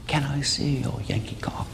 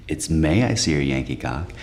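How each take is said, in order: First: Higher, softer British girl impression; British accent. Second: Said in the usual way. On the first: British girl propositioning the comic in an alley, British accent. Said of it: "how can I say no to that accent?".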